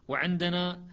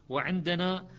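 The two takes are said the same way.

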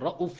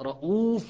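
First: The vowel after the glottal stop is short. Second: The vowel after the glottal stop is long. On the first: "مقصورة بضمة واحدة مقصورة" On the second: "بضمتين واو بمقدار ضمتين"

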